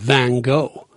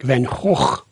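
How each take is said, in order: First: The name is said in an American way. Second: The name is said in a Dutch-like way. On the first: "the Americans call him Van Gogh" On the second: "the Dutch say something more like Van Gogh"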